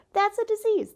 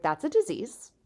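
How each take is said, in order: First: Much higher and louder; emphatic repeat. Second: Said in the usual way. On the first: Retold or imitated. Scolding her own brain, much higher and louder. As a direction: blurt it out, scandalized.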